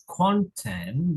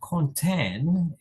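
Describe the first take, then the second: First: The stress is on the first syllable. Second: The stress is on the second syllable. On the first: "the stress is at the first syllable" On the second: "at the second syllable"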